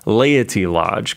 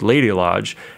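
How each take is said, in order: First: The first word is said carefully with a clear t. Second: The first word sounds like lady, with a d. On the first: The speaker calls it right. "I'll pronounce this really well" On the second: The speaker calls it wrong. "sometimes when you say it, you're like Lady Lodge"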